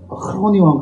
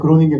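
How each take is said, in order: First: The name is said with a Dutch-style throaty G. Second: The name is said with an English-style hard G. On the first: The speaker calls it right. "크로닝왕 간다 그렇게" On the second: The speaker calls it wrong. "그로닝겐 그러면 아무도 못 알아듣고요"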